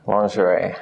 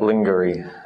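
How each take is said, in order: First: The ending is an 'ay' sound. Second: The ending is not an 'ay' sound. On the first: The speaker calls it right. "The I E becomes A" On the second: The speaker calls it wrong. "Not lingerie"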